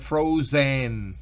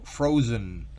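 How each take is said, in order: First: The last syllable has a full, clear E vowel. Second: The last syllable has a weak, reduced vowel. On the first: The speaker calls it wrong. "No es frozen" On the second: The speaker calls it right. "Casi no se percibe la E"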